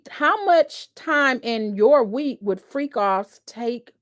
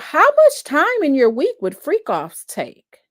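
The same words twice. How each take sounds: First: It is read flatly and haltingly, not as a question. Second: It is read with a questioning tune.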